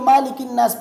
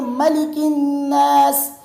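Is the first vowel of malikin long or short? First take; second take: long; short. First: The first vowel is drawn out long. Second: The first vowel is kept short. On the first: The speaker calls it wrong. "मालिकिन नास पढ़ते हैं" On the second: The speaker calls it right. "मालिकिन न पढ़े बल्कि मलिकिन नास"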